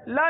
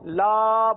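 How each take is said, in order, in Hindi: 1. स्वर को छोटा रखा जाता है। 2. स्वर को लंबा खींचा जाता है। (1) "खींचना नहीं है" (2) "अगर वैसे गोल दायरा ना होता तो हम लाम अलिफ जबर ला पढ़ते"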